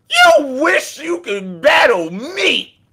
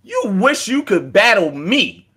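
First: Shouted taunt. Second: Said in the usual way. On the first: Acted. Taunting Danny that he wishes he could battle, shouted. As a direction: yell the taunt and drag it out.

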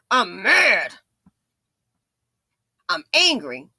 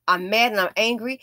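First: Lightly voiced angry man, a bit louder; mock angry man. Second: Said in the usual way. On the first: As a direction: imitate a hothead spitting it out. Mimics the angry Dusties.

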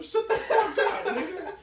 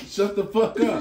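First: High, slow shout that breaks into a laugh; half-laughing fake rage; laughing mock yell. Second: Retold yell. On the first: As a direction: yell it while cracking up. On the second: Repeats the same yell louder.

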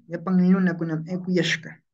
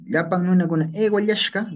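First: Yapan with palatal ly, eukuyashka with y; regional variant. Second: Eguayashka said "e-go-LYASH-ka"; raised pitch, eguayashka with g and palatal ly; regional variant. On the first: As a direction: say eukuyashka as "eu-ku-YASH-ka". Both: Shown as a demonstration. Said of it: "dependiendo de la pronunciación".

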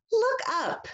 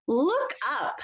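First: Excited call. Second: Said in the usual way. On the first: Shown as a demonstration. Echo read, second take.

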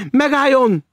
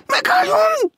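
First: High, loud cry of command; shout. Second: Very high, loud shriek; almost scream it in alarm; near scream. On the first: Maud to the stranger heading for the door, shouting. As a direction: call out sharply to stop him. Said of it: "kiáltotta Maud". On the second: Maud as the stranger makes for the window, almost screaming. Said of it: "Maud szinte felsikoltott". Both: A narrator's reading.

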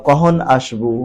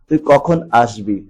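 First: "কখন আসবু" as kohon ashbu, slow; dialect form. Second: "কখন আসবি" as kokhon ashbi; standard form. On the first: Teacher reads the exercise, dialect "কখন আসবু" as kohon ashbu. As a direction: soften kh to h in "কখন", end "আসবু" on u. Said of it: "আঞ্চলিক বাক্যকে প্রমিত রূপে লিখতে হবে". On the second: Teacher converts for pupils, standard "কখন আসবি" as kokhon ashbi. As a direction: clear kh in "কখন", final i in "আসবি". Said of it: "প্রমিত রূপে লিখতে হবে". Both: Shown as a demonstration.

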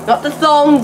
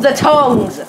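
First: "thongs" stressed as the wrong word; contrastive stress. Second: "tongs" stressed, falling at the end; corrective stress. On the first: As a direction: rule out "thongs" with raised pitch. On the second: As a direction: land firmly on "tongs" as the right word. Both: Shown as a demonstration. Corrects thongs against tongs.

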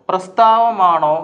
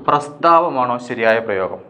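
First: പ്രസ്താവമാണോ drawn out slowly, each syllable held; slow spelled-out option. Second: Said in the usual way. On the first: Shown as a demonstration. Teacher slowly sounds out the first spelling for students. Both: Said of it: "ഇതിലേതാണ്?".

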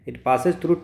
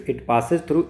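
The two takes are said the same way.

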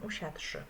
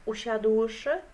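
First: Usiadłszy said as usiadszy, no ł; quick everyday usiadłszy, ł dropped; simplified pronunciation. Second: Usiadłszy said slowly and louder with the ł; careful usiadłszy, ł clearly kept; full pronunciation. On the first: Teacher showing the simplified usiadłszy in plain speech. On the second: Teacher stressing the full usiadłszy, slow and loud. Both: Shown as a demonstration.

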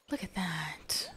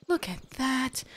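First: Slow, hushed whisper of awe. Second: Spoken out, higher with delight; excited. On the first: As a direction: whisper it in wonder. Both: Real, not acted. Repeats line, whispered then aloud.

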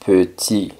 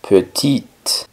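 First: Petit said "puh-TEE", ending on the vowel; silent final T. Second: Petite said "puh-TEET", T released at the end; sounded final T. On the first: Teacher giving the masculine form, petit with silent final T. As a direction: say petit with no T at the end. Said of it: "sino que ahora suena es la T". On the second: Teacher giving the feminine form, petite with audible final T. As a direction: sound the last T of petite, not the E. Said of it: "ahora suena es la T". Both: Shown as a demonstration.

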